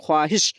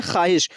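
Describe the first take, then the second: First: ख्वाहिश as kho-aa-hish, wav sounded; spelling pronunciation. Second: ख्वाहिश said as khaahish, no w; silent wav. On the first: Teacher contrasting writing with reading, ख्वाहिश said with its wav. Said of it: "हम लोग लिखते हैं". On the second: Teacher showing how it is read, ख्वाहिश as khaahish. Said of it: "लेकिन हम लोग पढ़ते हैं". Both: Shown as a demonstration.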